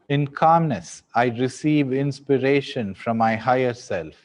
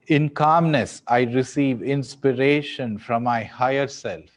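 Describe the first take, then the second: The two takes are said the same way.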